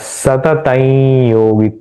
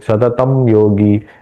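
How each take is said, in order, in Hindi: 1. अनुनासिक स्वर योगी में सहजता से जुड़ जाता है। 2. योगी से पहले पूर्ण म की ध्वनि बोली जाती है। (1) "तो कैसे उच्चारण करना है?" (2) "ऐसे ये तम योगी बो- बोलने से भी यहाँ पे फ्लो में कठिनाई आती"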